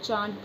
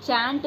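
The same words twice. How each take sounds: First: चांट said with a long open aa, as in "chaant"; teacher gives the right way, चांट with a long aa; right vowel shown. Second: चैंट said with a flat a, as in "chant" rhyming with "pant"; teacher shows the wrong way, चैंट with a flat a; wrong vowel shown. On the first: Teacher showing students चांट with a long aa. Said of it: "चांट पढ़ते हैं". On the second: Teacher warning students off saying चैंट with a flat a. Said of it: "चैंट नहीं पढ़ते हैं". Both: Shown as a demonstration.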